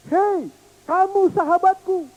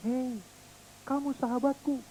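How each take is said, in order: First: Put-on high, louder child's voice; child calling kindly. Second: Soft, distant return; friendly echo. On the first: Little boy calling friendship to the hills, high child voice. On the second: Pretend. Echo answering the boy's friendship, soft and far. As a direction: let it drift back softly.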